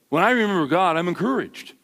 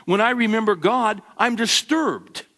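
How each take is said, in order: First: The expected churchy line, "encouraged" said lightly and neatly; dutiful, by-the-book reply; pious stock answer. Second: The real, uncomfortable answer; troubled confession. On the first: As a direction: recite the proper Sunday answer. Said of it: "That's what you're supposed to say". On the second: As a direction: read it as an honest, troubled cry. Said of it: "what are you supposed to say". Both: Shown as a demonstration.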